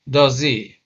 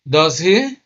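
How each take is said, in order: First: The voice falls at the end of the tag. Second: The voice rises at the end of the tag. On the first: The speaker is checking or confirming information. "If the intonation of the question tag goes down" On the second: The speaker is unsure and wants to know the answer. "you can see that the tone goes up"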